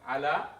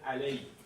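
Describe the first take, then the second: First: The word ends in a plain 'a' vowel. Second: The word ends in an 'ay' vowel sound. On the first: "ala means on" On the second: "sometimes this is pronounced as alay"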